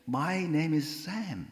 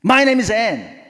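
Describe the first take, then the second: First: Slow, friendly self-introduction; smiling introduction. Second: High, loud angry shout. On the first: New neighbor introducing himself to the angry woman, smiling. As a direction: introduce yourself pleasantly, unruffled, through a smile. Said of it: "이제 싹 웃고". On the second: Angry neighbor giving her name to the smiling newcomer, angry. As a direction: snap the introduction back, imitating a furious neighbor. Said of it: "화가 났어요". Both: Retold or imitated.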